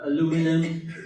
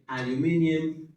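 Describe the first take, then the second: First: It is said in an American accent. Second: It is said in a British accent. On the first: "Americans say" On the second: "Brits say"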